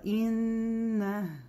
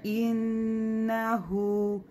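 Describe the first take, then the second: First: The word ends in a consonant, no vowel. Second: The word ends in a long final vowel. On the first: The reader stops at this word. "А если бы остановились, просто га бы было" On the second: The reading continues into the next word. "при слитном чтении мы здесь читаем как долгий мед"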